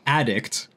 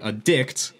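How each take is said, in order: First: The stress is on the first syllable. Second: The stress is on the second syllable. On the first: It is the noun. "then I'm talking about a noun" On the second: It is the verb. "I put the emphasis on the second half"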